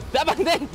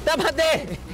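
No difference in how they are said.

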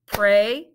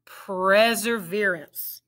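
First: "Perseverance" broken into parts; syllable by syllable; split into syllables. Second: "Perseverance" said smoothly as one word; blended "Perseverance". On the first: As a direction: segment "Perseverance". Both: Shown as a demonstration. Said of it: "Let's blend it".

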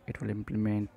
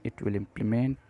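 The two takes are said the same way.

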